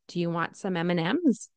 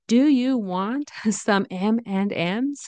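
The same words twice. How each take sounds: First: The word 'and' is reduced and run together. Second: The word 'and' is said fully and carefully. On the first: It sounds casual and natural. The speaker calls it right. "we usually say M and M's" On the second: It sounds too formal. The speaker calls it wrong. "that's a little too formal and a little too pronounced"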